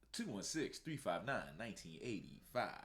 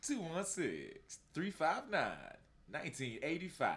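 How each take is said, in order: First: It is said in his own normal voice. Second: It is said imitating Jules from Pulp Fiction.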